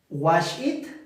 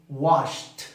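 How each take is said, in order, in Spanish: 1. El final se dice como una sílaba extra. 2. El final es un solo sonido de t. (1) "No decimos wash it" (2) "decimos washed"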